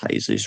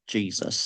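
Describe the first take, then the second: First: The name begins with an H sound. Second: The name begins with a J sound. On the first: "I think it's Jesus rather than Jesus" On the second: "rather than Jesus"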